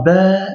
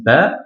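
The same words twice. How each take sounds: First: "Ba" with the vowel held long; prolonged A. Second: Said in the usual way. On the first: Shown as a demonstration. Teacher showing what the alif does, "Ba" drawn out long. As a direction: stretch the a of "Ba" well past normal length. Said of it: "indiquer qu'il faut prolonger". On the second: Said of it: "donc ça reste Ba".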